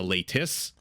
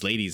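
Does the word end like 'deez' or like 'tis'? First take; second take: tis; deez. First: It ends in a clear 't' and 'is' sound. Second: It sounds like the English word 'ladies'. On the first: The speaker calls it right. "apparently the correct pronunciation for one is" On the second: The speaker calls it wrong. "because I kept saying ladies"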